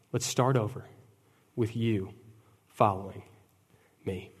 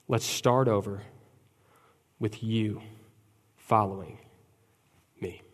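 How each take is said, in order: First: The preacher softly echoing Jesus; gentle invitation. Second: Soft, slow, falling lines; Jesus softly calling Peter back; gentle invitation. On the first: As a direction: call them back tenderly. Repeated tender invitation. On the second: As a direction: invite him back tenderly. Tender closing invitation. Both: Acted.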